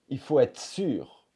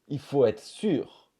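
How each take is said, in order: The two takes are said the same way.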